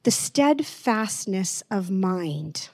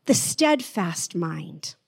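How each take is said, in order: First: Said in the usual way. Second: Slow, deliberate reading. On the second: Shown as a demonstration. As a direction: let each word sit slowly. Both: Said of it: "read that again and slow it down".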